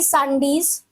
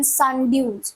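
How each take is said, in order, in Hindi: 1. नाम का अंत 'days' की ध्वनि से होता है। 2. नाम का अंत 'dews' की ध्वनि से होता है।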